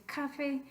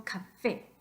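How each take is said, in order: First: "café" stressed on CA; misplaced stress. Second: "café" stressed on FÉ; stress on final É. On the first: Teacher showing what not to say, café stressed on CA. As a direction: put the weight on CA in "café". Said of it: "No queremos decir café". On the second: Teacher correcting to the real word, café stressed on FÉ. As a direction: land on the last syllable FÉ in "café". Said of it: "sino café". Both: Shown as a demonstration.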